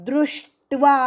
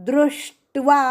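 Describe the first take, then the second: Both takes have the same delivery.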